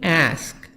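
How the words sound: It is said in an American accent.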